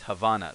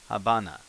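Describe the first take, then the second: First: The middle consonant is a 'v' sound. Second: The middle consonant is a 'b' sound. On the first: "they got the va" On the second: "they're using the ba to replicate"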